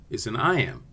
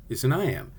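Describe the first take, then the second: No difference in how they are said.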